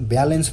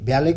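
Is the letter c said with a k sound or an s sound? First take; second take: s sound; k sound. First: The c is said with an s sound. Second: The c is said with a k sound. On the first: The speaker calls it right. "ब्यालेन्स हुन्छ" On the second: The speaker calls it wrong. "ब्यालेक भन्ने त हुँदैन"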